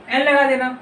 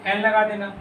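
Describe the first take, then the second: First: N लगा देना repeated louder and firmer; louder reminder. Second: Said in the usual way. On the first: Shown as a demonstration. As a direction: drive home N लगा देना to the class. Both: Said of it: "बोले थे ना".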